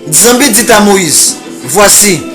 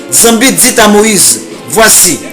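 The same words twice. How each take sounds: The two takes are said the same way.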